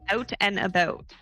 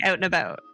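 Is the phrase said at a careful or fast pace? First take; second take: careful; fast. First: The phrase is said slowly and carefully. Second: The phrase is said quickly and casually. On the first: "that's how I say it to me" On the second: "If I said it fast"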